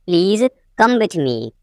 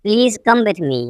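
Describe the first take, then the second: First: Teacher setting "Please" apart; broken-up repeat. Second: Said in the usual way. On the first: Shown as a demonstration. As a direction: pause after "Please".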